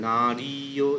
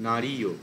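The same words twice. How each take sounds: First: নারীয় said short and clipped; wrong demo. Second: নারীয় with long রী and long ইয়ো; correct demo. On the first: Teacher contrasting the wrong form for students, short vowels. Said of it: "এরকম না". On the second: Teacher modelling the right form for students, long vowels. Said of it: "মানে নারীয় এরকম না". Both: Shown as a demonstration.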